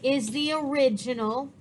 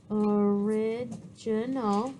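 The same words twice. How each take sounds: First: Said in the usual way. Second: Word drawn out syllable by syllable; slow dictation. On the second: Real, not acted. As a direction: say it slowly as you write it, pitch dropped. Repeats the word while writing it.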